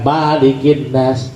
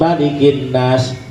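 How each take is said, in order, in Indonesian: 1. Vokal pertama malik itu panjang. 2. Vokal pertama malik itu pendek. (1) "bukan Malikin Nas"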